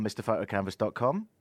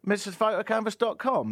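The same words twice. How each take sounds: First: Said in the usual way. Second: Higher emphatic brand name; ad read. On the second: Acted. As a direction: sell the name loudly. Ad name repeated.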